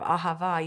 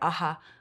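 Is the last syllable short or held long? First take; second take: short; held long. First: The last syllable is short and normal. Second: The last syllable is held very long.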